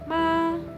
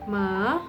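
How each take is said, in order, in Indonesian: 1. Nadanya tetap tinggi dan datar. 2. Nadanya naik seperti pertanyaan. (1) "diucapkan dengan tinggi dan datar" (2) "seperti bertanya atau dari turun ke naik"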